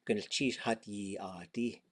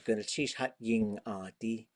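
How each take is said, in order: First: The y sound is plain, without nasal ng. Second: The y sound carries a nasal ng quality. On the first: The speaker is from the northern dialect area. "Northern Tlingit" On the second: The speaker is from Teslin. "if you were from Tesla, you'd say"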